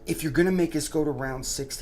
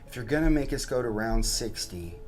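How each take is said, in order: First: It is said in a heated, angry tone. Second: It is said in a calmer, measured tone. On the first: The speaker calls it wrong. "I'm so, so hot about" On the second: The speaker calls it right. "I'm sorry, I'll change my tone"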